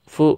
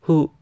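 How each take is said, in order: First: The syllable begins with an f sound. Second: The syllable begins with an h sound. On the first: "di sini ini fu" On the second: "Emang kalau kedengeran sih kayak hu"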